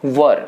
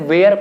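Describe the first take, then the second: First: The vowel sounds like "er". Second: The vowel sounds like "air". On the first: The speaker calls it right. "इसका pronunciation क्या है" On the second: The speaker calls it wrong. "कुछ लोग इसे वेयर पढ़ते हैं"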